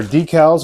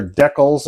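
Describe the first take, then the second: First: Said in the usual way. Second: Decals said as DECK-ulls; decals, first syllable like "deck"; UK pronunciation. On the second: Shown as a demonstration. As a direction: say "decals" with a short e, British style. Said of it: "as they say in the U K".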